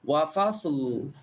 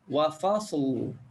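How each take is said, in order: The two takes are said the same way.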